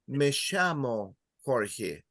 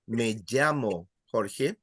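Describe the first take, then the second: First: It is said in an Argentine Spanish accent. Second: It is said in a non-Argentine Spanish accent. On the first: "And in Argentina and Uruguay, they will say" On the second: "In other areas, they will say"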